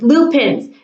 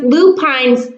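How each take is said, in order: First: The last syllable sounds like 'pins'. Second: The last syllable sounds like 'pines'. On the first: The speaker calls it right. "It's lupins" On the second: The speaker calls it wrong. "it looks like it should be pronounced lupines, but it's not pronounced that way"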